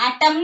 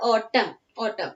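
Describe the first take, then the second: First: "atom" with an added N, AT-um-n; wrongly sounded N. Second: "autumn" as AW-tum, ending on M; silent N. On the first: Teacher showing what we don't say, N voiced in "atom". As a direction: sound out the silent N at the end of "atom". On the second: Teacher repeating the correct form for pupils, silent N in "autumn". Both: Shown as a demonstration. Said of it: "എന്ന് നമ്മൾ പറയില്ല".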